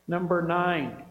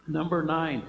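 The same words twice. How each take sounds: The two takes are said the same way.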